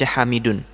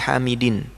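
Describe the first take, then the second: First: The word ends with the vowel u and n. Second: The word ends with the vowel i and n. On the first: The speaker calls it right. "dibaca hamidun" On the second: The speaker calls it wrong. "bukan fihi hamidin"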